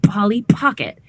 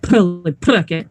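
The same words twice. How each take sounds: First: The P sounds are made with lips pressed harder. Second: The P sounds are made with lips folded inward. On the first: The speaker calls it right. "a little bit more pressure on your lips" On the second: The speaker calls it wrong. "we don't fold our lips in. Yeah, not like this"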